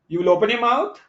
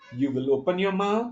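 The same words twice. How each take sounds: First: The pitch rises at the end. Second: The pitch falls at the end. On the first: It sounds like an uncertain question. "as a rising tone" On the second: It sounds like an order or command. "downward tone"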